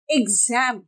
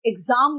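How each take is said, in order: First: एग्जाम ending in "-zaem", like "gem"; flat English A. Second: एग्जाम with long "aa", "eg-zaam"; long Hindi A. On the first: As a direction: open एग्जाम to an English 'ae'. (एग्जाम में 'ज़ैम') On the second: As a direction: stretch एग्जाम to 'zaam'. (एग्जाम में लंबा 'आ') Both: Shown as a demonstration. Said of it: "एग्जाम नहीं बोलते".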